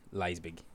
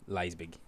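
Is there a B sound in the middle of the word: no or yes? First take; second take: yes; yes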